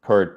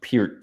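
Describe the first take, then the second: First: "Peart" said as "pert"; former pronunciation. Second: "Peart" said as "peert"; drummer's own pronunciation. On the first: Filmmaker showing their old habit, "Peart" as "pert". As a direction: say "Peart" to rhyme with "shirt". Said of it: "I always used to say [name]". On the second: Filmmaker passing on how the drummer said it, "[name]" as "peert". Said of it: "he said Peart to me". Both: Shown as a demonstration.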